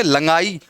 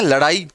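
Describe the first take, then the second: First: लंगाई with nasal ng for ड़; misspelling read literally. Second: लड़ाई with a flapped ड़; correct reading. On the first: Teacher shows the misspelt word's sound, लंगाई with nasal ng. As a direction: say लंगाई with ङ in the middle. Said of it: "अब लंगाई नहीं होता". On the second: Teacher reads the correctly written word, लड़ाई with flapped ड़. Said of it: "इसको पढ़ेंगे लंगाई". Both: Shown as a demonstration.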